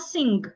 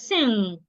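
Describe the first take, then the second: First: A G sound is heard at the end. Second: It ends on ng with no G heard. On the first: The speaker calls it wrong. "It is not sing" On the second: The speaker calls it right. "it is sing. ... The G should not be heard"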